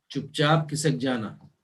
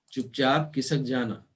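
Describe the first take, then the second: No difference in how they are said.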